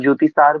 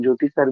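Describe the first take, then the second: First: ज्योतिसार with a long drawn "saar" ending; long aa in Jyotisar. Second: ज्योतिसर with a short clipped "sar" ending; short a in Jyotisar. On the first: Preacher telling devotees one way to say it, ज्योतिसार with long saar. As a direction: stretch the last vowel: ज्योतिसार. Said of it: "कुछ लोग ज्योतिसार बोलते हैं". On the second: Preacher giving devotees the other way to say it, ज्योतिसर with short sar. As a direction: keep the last vowel short: ज्योतिसर. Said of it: "कुछ लोग ज्योतिसर बोलते हैं". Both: Shown as a demonstration.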